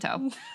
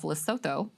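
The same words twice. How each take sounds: First: The middle consonant is a plain 't' sound. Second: The middle consonant is a 'th' sound. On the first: The speaker calls it right. "you don't say the a, the T H, it's just a T" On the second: The speaker calls it wrong. "I think you pronounced it incorrectly"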